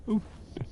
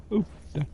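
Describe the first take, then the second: First: Whispered echo. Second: Said in the usual way. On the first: Real, not acted. Picking up loot items.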